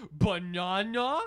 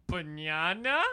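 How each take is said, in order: First: Slow, loud, high puzzled "Banana?"; mock puzzled. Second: Loud, puzzled questioning rise; mock baffled coworker; imitating coworker. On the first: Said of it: "I was like". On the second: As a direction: echo the coworker's unsure "Banana?". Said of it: "He looked at me and went".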